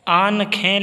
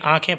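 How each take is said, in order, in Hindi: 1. k से पहले पूरी 'न' की आवाज़ बोली जाती है। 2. स्वर अनुनासिक होता है, पूरी 'न' नहीं होती। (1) "लिखा जाता है" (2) "आँखें पढ़िएगा, इसको नुगुन्ना पढ़िएगा"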